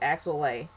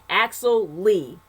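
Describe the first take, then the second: First: The surname ends with an 'ay' vowel. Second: The surname ends with an 'ee' vowel. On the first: The speaker calls it wrong. "Maybe this was Axel Lay" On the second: The speaker calls it right. "the right way to pronounce the name is Lee"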